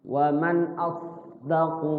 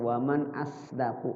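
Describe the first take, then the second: First: The s sound is thick and heavy. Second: The s sound is thin, like a plain s. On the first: The speaker calls it right. "Shad itu agak tebal" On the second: The speaker calls it wrong. "kayak huruf sin aja baca"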